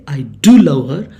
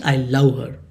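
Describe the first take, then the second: First: "do" punched loud, the phrase said quickly; bold, louder stress on "do"; emphatic DO. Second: Said in the usual way. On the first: Shown as a demonstration. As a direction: hit "do" hard before "love her". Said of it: "you emphasize that". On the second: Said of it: "there is no emphasis on that".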